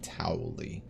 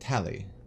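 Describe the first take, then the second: First: The first vowel sounds like 'ow'. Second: The first vowel sounds like 'ah'. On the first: The speaker calls it wrong. "I always want to pronounce it Towley" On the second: The speaker calls it right. "No, Tali"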